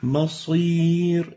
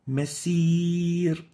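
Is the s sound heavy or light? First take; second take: heavy; light. First: The s sound is heavy and emphatic. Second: The s sound is light, like a plain s. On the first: The speaker calls it right. "So the right way of pronouncing this is" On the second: The speaker calls it wrong. "not masir"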